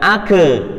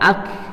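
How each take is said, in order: First: A short vowel follows the final k. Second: The word ends cleanly on k. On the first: The speaker calls it wrong. "bukan ake" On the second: The speaker calls it right. "tapi ak"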